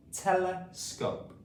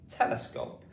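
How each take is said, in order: First: Tele, pause, scope, slow with tele raised high; slow two-part Telescope, tele then scope; split into syllables. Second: Said in the usual way. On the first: Shown as a demonstration. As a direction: stretch Telescope into two separate parts. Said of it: "split this word up into different". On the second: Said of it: "telescope is the word".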